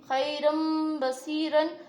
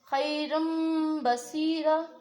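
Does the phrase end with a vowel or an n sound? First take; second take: n sound; vowel. First: The last word ends with an n sound. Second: The last word ends on a long open vowel. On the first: The reciter continues without stopping. "अगर वसल में पढ़े हैं तो बसीरन पढ़ेंगे" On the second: The reciter stops at this word. "अगर यहाँ पर रुक रहे हैं यानी कि वक्फ कर रहे हैं तो बसीरा"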